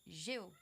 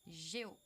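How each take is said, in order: No difference in how they are said.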